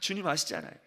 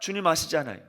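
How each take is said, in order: First: It is said most quietly, trailing off. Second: It is said at the fullest volume.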